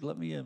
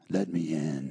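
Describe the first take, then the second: First: It is said in a casual friendly voice. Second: It is said in a menacing devil voice.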